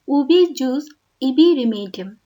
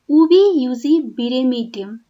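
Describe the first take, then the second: First: 'Jus' begins with a J sound. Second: 'Jus' begins with a Y sound. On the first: The speaker calls it wrong. "not as" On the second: The speaker calls it right. "it is pronounced as"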